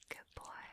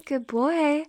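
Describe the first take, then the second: First: Very soft, voiceless whisper; whispered praise. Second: Said in the usual way. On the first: Acted. Dominant praising partner, whispered. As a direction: whisper approval close to the ear.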